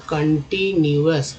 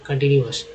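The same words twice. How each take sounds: First: continuous slowly, syllable by syllable; teacher breaking up continuous slowly; sounding out. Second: Said in the usual way. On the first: Shown as a demonstration. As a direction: stretch continuous into separate parts. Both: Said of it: "कन भी है".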